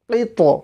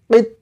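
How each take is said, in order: First: The final consonant ends with an echoing bounce. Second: The final consonant ends flat without a bounce. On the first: The speaker calls it right. "যেন তটা পুর হয় এবং তর মধ্যে একটা ধাক্কা লাগানো" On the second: The speaker calls it wrong. "এখানে যদি আপনি কিত বলেন হবে না"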